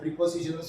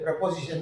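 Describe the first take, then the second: First: The first syllable has a short 'ih' vowel. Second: The first syllable has a short 'uh' vowel. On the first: The speaker calls it wrong. "நம்ம ப்ரிப்போசிஷன் சொல்கிறோம்" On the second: The speaker calls it right. "அது வந்து சரியான ஒரு pronunciation"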